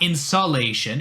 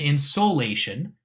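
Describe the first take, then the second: First: The middle does not sound like 'solar'. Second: The middle sounds like 'solar'. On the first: The speaker calls it wrong. "And not insolation" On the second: The speaker calls it right. "solar kind of sound on that one"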